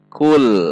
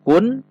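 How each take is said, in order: First: The syllable ends with an L sound. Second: The syllable ends with an N sound. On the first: The speaker calls it right. "namun dibaca kul" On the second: The speaker calls it wrong. "bukan kun"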